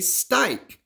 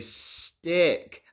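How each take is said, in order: First: The vowel is said long, like in 'strike'. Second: The vowel is said short, like in 'sick'. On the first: The speaker calls it wrong. "That didn't stike? ... that doesn't make sense" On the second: The speaker calls it right. "I needed that short vowel sound"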